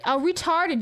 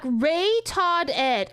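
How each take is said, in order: First: Said in the usual way. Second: "Ray Todd Ed" read slowly as three separate words, Ray, Todd, Ed; sounding out chat's spelling. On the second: Shown as a demonstration. Streamer reading a garbled chat message aloud, sounding it out slowly. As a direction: spell out "Ray Todd Ed" word by word, puzzled and slow.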